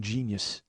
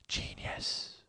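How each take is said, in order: First: Said in the usual way. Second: Hushed, voiceless "genius"; barely audible, breath-only whisper; whispered echo. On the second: Real, not acted. Hushed echo of his praise.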